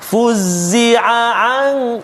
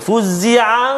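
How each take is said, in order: First: Both ain sounds are clear, the second slightly pressed. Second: The two ain sounds merge into one. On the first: The speaker calls it right. "kita tekan sedikit yang kedua tu" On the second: The speaker calls it wrong. "dia mungkin boleh jadi macam satu ain je"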